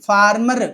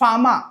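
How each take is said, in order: First: The r sounds in the word are pronounced. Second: The r sounds in the word are silent. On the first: The speaker calls it wrong. "ఫార్మర్ కాదు" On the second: The speaker calls it right. "ఆర్ని silent చేయాలి కదా"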